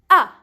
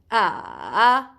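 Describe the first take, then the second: First: The pitch falls sharply from high. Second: The pitch dips down and then rises. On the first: "You go from up, up, up, then you go down with your voice" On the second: "you go from down, from up to down to up"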